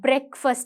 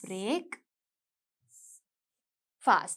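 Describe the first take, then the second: First: It is said as one joined word. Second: It is said as two separate words. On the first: "But நாங்க சொல்லும்போது breakfast என்று தான் சொல்லுவோம்" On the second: "Look at this, breaking the fast"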